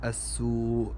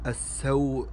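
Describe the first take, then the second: First: "السوء" slowly as as-su'; slow "السوء" with long oo; damma on sin. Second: "السوء" slowly as as-saw'; fatha on sin. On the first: Teacher contrasts the word, mistaken "السوء" said as-su'. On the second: Teacher contrasts the word, correct "السوء" said as-saw'. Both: Shown as a demonstration. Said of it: "وليس".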